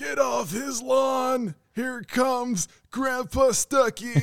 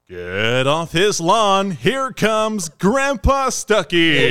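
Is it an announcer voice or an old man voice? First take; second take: old man; announcer. First: It is said in a creaky old man voice. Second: It is said in a baseball announcer voice.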